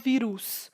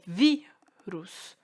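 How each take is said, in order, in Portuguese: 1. A tônica está na última sílaba. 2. A tônica está na primeira sílaba. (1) "eu não falo vírus" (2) "Essa é a penúltima sílaba"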